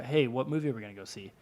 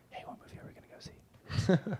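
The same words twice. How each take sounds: First: Said in the usual way. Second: Whispered echo of his own question; under his breath. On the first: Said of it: "He'd be like". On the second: Retold or imitated. Host mimicking Jacob's old habit, whispered under the breath. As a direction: repeat it to yourself in a whisper. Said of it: "under his breath".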